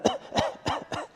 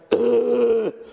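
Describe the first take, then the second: First: Short airy cough of something down the wrong way; a light, breathless little cough with a laugh; dainty wrong-pipe cough; small sip cough. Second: Heavy spluttering choke; hacking cough. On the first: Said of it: "The first one's like". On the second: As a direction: cough like you swallowed the ocean. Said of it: "sounds a little bit more like". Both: Shown as a demonstration.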